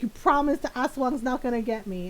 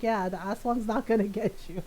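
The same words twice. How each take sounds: First: Lightly voiced anxious question; mildly worried brother. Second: Even, understated comforting answer; mild reassurance. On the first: Scared brother asking oldest sister to promise, mildly anxious. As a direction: ask for a promise, a touch worried. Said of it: "really scared". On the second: Retold or imitated. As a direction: settle the worry matter-of-factly. Oldest sister reassures scared brother.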